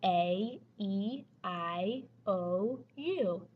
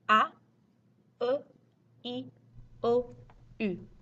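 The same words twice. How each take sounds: First: The vowels are long, with the mouth moving. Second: The vowels are short and clipped, mouth held still. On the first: "In English, however, we do longer sounds, and you can see somebody's mouth move" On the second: "in French, they're very short and clipped"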